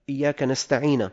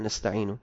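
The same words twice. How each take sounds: First: "نستعين" ending in -na; fatha on nun. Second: Said in the usual way. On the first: Shown as a demonstration. Teacher shows a harmless error, "نستعين" pronounced nasta'ina. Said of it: "بفتح النون الثانية". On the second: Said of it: "قال بدل".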